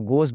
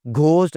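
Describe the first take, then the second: First: घोस्ट with a plain g; no breath after g in घोस्ट; silent H. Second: घोस्ट with breath after g; mispronounced H. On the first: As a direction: say घोस्ट as goast. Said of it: "आप इसको घोस्ट बोलते हैं". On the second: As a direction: say घोस्ट as ghh-ost. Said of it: "घोस्ट नहीं बोलते जी". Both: Shown as a demonstration.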